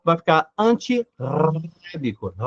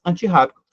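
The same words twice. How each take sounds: First: Antirrábico com o r fraco, batido na ponta da língua; r vibrante simples. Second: Antirrábico com o r forte, raspado na garganta; r gutural. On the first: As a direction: diga antirrábico tremendo a língua uma só vez. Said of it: "o som fica lingodental". (r simples, com a língua) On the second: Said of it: "fica ali um R a mais". (r forte, de garganta) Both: Shown as a demonstration.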